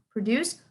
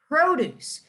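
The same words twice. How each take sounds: First: The stress is on the second syllable. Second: The stress is on the first syllable.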